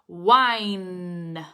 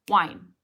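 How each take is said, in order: First: The word is drawn out slowly. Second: The word is said short and quick. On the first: The speaker calls it wrong. "like a very unnatural slowing down" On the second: The speaker calls it right. "It's that fast"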